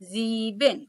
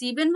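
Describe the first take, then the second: First: The word begins with a z sound. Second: The word begins with an s sound. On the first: The speaker calls it right. "প্রনাউন্সিয়েশনটা আরেকবার বলি" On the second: The speaker calls it wrong. "এটাকে আমরা কি সিবেন বলবো না"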